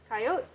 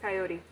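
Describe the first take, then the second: First: The word is said with two syllables. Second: The word is said with three syllables. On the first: The speaker needs to get to the point quickly. "was shortened because we needed to get to the point very quick" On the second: The speaker has time to get the full thought out. "the full thing when you have time to get the full thought out"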